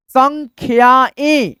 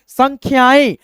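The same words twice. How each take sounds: First: "संख्याएं" drawn out slowly, nasal last vowel; चंद्रबिंदु का उच्चारण. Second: Quicker, joined-up word; speed में पढ़ना. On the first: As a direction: stretch "संख्याएं" syllable by syllable, ending through the nose. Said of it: "इसका उच्चारण हम लोग नाक से करते हैं". ("संख्याएं" धीरे, आख़िरी स्वर नाक से) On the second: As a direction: read it in one run. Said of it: "इसको हम स्पीड में आपको पढ़ करके". (जोड़कर तेज़ी से पढ़ना) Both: Shown as a demonstration.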